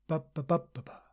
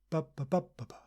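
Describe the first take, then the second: Both takes have the same delivery.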